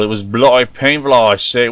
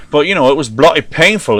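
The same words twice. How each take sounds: First: Mock Cockney on bloody painful, I say; a hammed-up Cockney accent, tacking on I say. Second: Mock Cockney accent on bloody painful; an overdone Cockney accent, dropping the t sounds. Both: American host jokingly trying a Cockney accent for British friends. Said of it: "What is that, like the Cockney style?".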